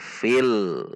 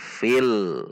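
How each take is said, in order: First: The l sound is held briefly and smoothly. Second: The same.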